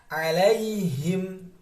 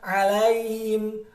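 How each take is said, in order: First: The 'h' sound is clearly pronounced. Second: The 'h' sound is faint and blurred. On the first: The speaker calls it right. "Tapi kita baca dengan jelas" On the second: The speaker calls it wrong. "Jangan samar-samar"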